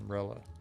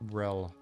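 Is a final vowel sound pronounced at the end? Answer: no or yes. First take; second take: yes; no. First: A final vowel sound is pronounced. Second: No final vowel sound is pronounced. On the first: The speaker calls it wrong. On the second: The speaker calls it right.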